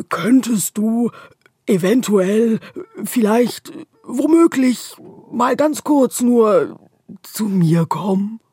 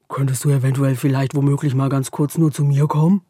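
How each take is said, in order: First: Slow, loud and clearly spaced; slow careful repeat. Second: Rushed mumble. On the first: The darkness repeats its request, slow and clear. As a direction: spell it out slowly word by word. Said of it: "wiederholt die Dunkelheit". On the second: The darkness gabbles its shy request too fast. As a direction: rush all the words together shyly. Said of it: "spricht so schnell". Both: A narrator's reading.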